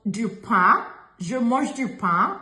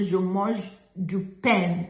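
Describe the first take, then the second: First: "pain" ending open and nasal, no N; nasal French vowel in "pain"; correct nasal pain. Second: "pain" slowly said as "pen" with a sounded N; mispronounced "pain", N voiced; wrong pronounced N. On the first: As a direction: demonstrate "pain" with the N silent, lifting at the end. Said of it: "is what we say". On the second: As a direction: drag out "je mange du pain", closing "pain" on a hard N. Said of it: "We don't say". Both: Shown as a demonstration.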